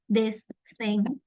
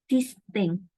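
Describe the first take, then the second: First: The th sounds are pronounced as th. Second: The th sounds become simpler common sounds. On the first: "pronouncing this thing" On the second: "convert this the sound in more common ones"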